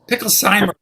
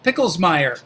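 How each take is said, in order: First: The name ends with a 'sheimer' sound. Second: The name ends with a 'meyer' sound. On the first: The speaker calls it right. "it's actually Picklesheimer" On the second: The speaker calls it wrong. "I hope I'm saying this right"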